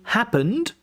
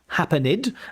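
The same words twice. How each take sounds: First: The ending is a short d sound. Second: The ending adds an extra 'id' syllable. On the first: The speaker calls it right. "say happened" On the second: The speaker calls it wrong. "not happened"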